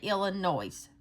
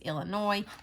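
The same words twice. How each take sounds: First: The final s is pronounced. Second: The final s is silent. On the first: The speaker calls it wrong. "I know I don't say that right. I say Illinois" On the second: The speaker calls it right. "It's Illinois, but it's got an S on the end"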